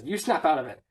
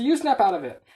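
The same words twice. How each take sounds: First: Low-key snap-out-of-it retort; acted retort. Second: Higher, louder squabbling comeback; escalated acted retort. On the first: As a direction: hand the order back, still fairly contained. Slapping quarrel, first retort. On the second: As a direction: top the other one in a mock quarrel. Slapping quarrel at its height.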